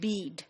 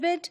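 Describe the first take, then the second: First: The vowel is long, as in standard British. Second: The vowel is short, as in Nigerian English. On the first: "in standard British pronunciation, there are two sounds" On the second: "bead would also be pronounced as bid"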